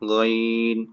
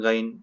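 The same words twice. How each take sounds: First: The vowel is stretched out long. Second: The vowel is said short, without stretching. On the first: The speaker calls it right. "উচ্চারণ হচ্ছে গাইন" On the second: The speaker calls it wrong. "আমরা অনেকে বলি আইন, গাইন। এটা সঠিক উচ্চারণ না।"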